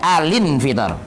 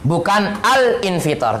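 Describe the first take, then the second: First: The l carries an i vowel into the next syllable. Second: The l is cut off before a separate syllable. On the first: The speaker calls it right. "Begini jadinya" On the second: The speaker calls it wrong.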